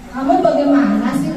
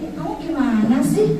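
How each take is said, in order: First: It is said in a reproachful, blaming tone. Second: It is said softly in a low, friendly tone. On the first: The speaker makes the child feel guilty. "sebagai pembuat rasa bersalah" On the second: The speaker treats the child as a friend. "menggunakan nada bicara yang rendah"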